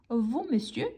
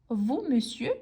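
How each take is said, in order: No difference in how they are said.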